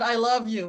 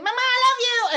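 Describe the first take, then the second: First: Said in the usual way. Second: Put-on high, loud, stretched-out child's holler; screaming. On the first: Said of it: "because he said". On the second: Son coming home to his napping mother, screaming affectionately. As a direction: bellow it like a son bursting in. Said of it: "he's screaming".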